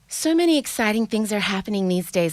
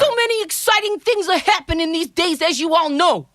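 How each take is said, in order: First: It is said in her ordinary accent. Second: It is said in a heavy Bronx accent.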